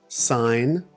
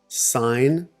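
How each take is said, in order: Both takes have the same delivery.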